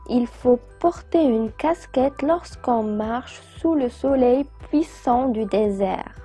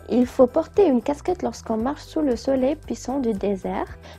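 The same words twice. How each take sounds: First: The sentence is read at a normal pace. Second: The sentence is read as fast as possible.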